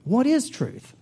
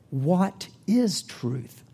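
First: Higher, sharper retort; Pilate retorting again. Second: Slow, dismissive retort; Pilate retorting. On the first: Pilate retorting to Jesus, pitched up. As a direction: toss the question back higher. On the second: Pilate retorting to Jesus, slow and dismissive. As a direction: let the question hang, slow and cold. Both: Acted. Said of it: "retorted Pilate".

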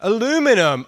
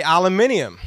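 First: ALUMINUM as a-LOO-mi-num; American "a-LOO-minum". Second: ALUMINIUM as al-a-MIN-ee-um; British "al-a-MIN-ium". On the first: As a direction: stress the LOO in Aluminum, four syllables. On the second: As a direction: stress the MIN in aluminium, five syllables. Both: Shown as a demonstration. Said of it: "I would say aluminium".

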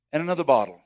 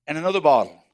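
No difference in how they are said.

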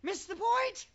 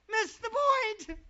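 First: Said in the usual way. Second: "Miss the point" slower and louder, hammering "point"; slower emphatic repeat. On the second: Shown as a demonstration. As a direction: drive "point" home, slowly.

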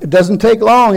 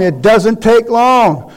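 First: Said in the usual way. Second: "take" stretched and stressed, whole line slowed; slow emphatic repeat. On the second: Shown as a demonstration. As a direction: repeat it slowly, leaning on "take".

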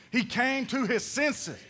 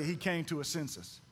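First: "He came to his senses" slow and firmly punched; said like you mean it. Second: Low, soft throwaway prompt; feed the line quietly for others to repeat; subdued, dropped in pitch and volume; low-key cue. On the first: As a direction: deliver "came to his senses" with conviction, each word distinct. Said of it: "Say it like you mean it". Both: Shown as a demonstration.

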